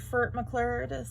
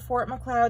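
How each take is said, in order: First: The first word is said with a distorted vowel. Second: The name is said with its normal vowels. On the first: "turned the name of Fort Macleod in my brain into Furt Macleod" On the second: "the name of Fort Macleod"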